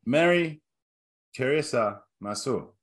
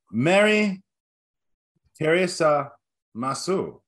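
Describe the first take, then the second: First: Half-hearted fake Japanese accent; bad Japanese accent. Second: A clumsy mock Japanese accent, drawn out word by word; bad Japanese accent. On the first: Host repeating the guess-the-country greeting in a fake Japanese accent. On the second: Host quizzing co-hosts in a terrible Japanese accent. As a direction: fake Japanese greeting with long pauses between words. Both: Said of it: "worst Japanese accent you have ever attempted".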